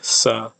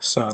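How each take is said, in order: First: The s is a plain English-like s. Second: The s is retracted, sounding near sh. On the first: "this S is like in English" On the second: "That's this retracted S"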